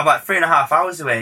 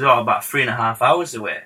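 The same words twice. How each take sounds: First: Higher, quick echo in a bad accent. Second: Said in the usual way. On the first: Star echoing the producer's travel time, bad impression. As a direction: repeat it back as a badly imitated star. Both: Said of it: "This is a really terrible [name] accent".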